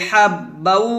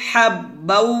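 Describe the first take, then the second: Both takes have the same delivery.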